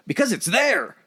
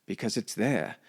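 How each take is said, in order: First: High, loud redneck drawl. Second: Refined British accent, measured and poetic; posh British voice. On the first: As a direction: belt it out like a Southern hick. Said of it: "Put it in a redneck voice". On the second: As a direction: say it like a proper English gentleman. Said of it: "you put it in a posh British voice". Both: Shown as a demonstration.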